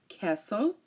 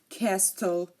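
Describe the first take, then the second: First: The T sound is silent. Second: The T sound is pronounced. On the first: The speaker calls it right. "No, castle" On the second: The speaker calls it wrong. "You are not hearing me say"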